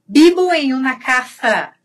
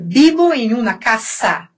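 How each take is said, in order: First: "casa" with a th sound in the middle; tongue between the teeth on "casa"; Madrid ceceo. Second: "casa" with a plain s; Argentine seseo. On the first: Teacher showing how Madrid people say it, th in "casa". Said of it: "Em Madrid". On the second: Teacher showing how Argentines say it, plain s in "casa". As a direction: hiss the s in "casa", tongue behind the teeth. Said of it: "E na, na, na Argentina". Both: Shown as a demonstration.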